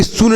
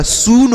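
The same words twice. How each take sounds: First: सुन with a short, quick u; wrong short u. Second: सून with a long oo; correct long oo. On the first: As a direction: cut the vowel of सुन short. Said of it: "सुन नहीं होता". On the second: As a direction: stretch the vowel of सून. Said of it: "सून होता है". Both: Shown as a demonstration.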